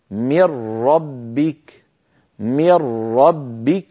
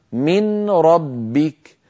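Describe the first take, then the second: First: Slow "من ربك" with the nun merged into a doubled ra, "mir-rabbik"; after idgham. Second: Slow "من ربك" with the nun still sounded; before idgham. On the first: Teacher showing the merged form after idgham, nun gone. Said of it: "لكن بعد الإدغام صار النطق هكذا". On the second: Teacher contrasting the form before merging, nun still heard. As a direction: say "من ربك" as "min rabbik", nun kept clear. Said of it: "كان النطق قبل الإدغام". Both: Shown as a demonstration.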